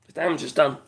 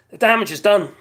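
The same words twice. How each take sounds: First: Said in the usual way. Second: Louder, firm stress on damage; emphatic. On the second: Shown as a demonstration. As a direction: land "damage" hard, louder.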